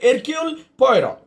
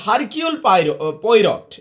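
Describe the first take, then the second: First: The initial H and final T are silent. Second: The initial H and final T are pronounced. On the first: The speaker calls it right. "এইচটা সাইলেন্ট আর টিটাও silent" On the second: The speaker calls it wrong. "এমনি যদি আক্ষরিক অর্থে যাও"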